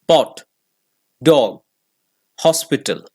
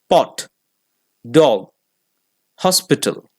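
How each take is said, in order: No difference in how they are said.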